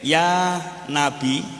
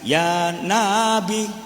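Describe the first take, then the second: First: The first vowel of Nabi is kept short. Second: The first vowel of Nabi is drawn out long. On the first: It means 'O Prophet'. The speaker calls it right. "Lek nane pendek" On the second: It means canine tooth. The speaker calls it wrong. "Tapi kalau nanya dibaca panjang"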